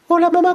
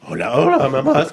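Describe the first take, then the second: First: The voice is high, like a child's. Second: The voice is low, like a man's. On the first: This is the voice before it breaks. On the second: This is the voice after it breaks.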